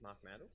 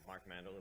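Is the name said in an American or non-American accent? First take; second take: non-American; American. First: The name is said in a non-American accent. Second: The name is said in an American accent.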